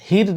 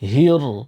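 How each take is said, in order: First: The r sound is light and thin. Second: The r sound is heavy and full. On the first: The speaker calls it wrong. "হির না কিন্তু" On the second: The speaker calls it right. "হির মোটা করে ধরবেন"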